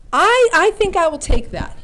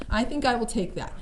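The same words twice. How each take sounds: First: Said in the usual way. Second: Quiet repeat. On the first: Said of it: "repeated self-verdict". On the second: Real, not acted. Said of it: "repeated quieter".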